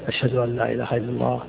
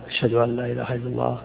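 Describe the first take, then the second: The two takes are said the same way.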